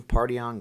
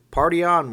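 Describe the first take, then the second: First: Said in the usual way. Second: Loud, high party shout; movie catchphrase. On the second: Pretend. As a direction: belt it out like a rock fan. Wayne's World catchphrase exchange.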